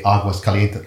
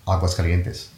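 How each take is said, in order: First: Aguas Calientes with Aguas and Calientes as separate words; said as two words. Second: Aguas Calientes run together as a single word; said as one word. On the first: Guest explaining the usual Spanish reading, Aguas Calientes as two words. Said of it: "like, two different words". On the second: Guest explaining the city's name, Aguas Calientes as one word. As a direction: join Aguas Calientes with no break between. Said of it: "the city is one word". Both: Shown as a demonstration.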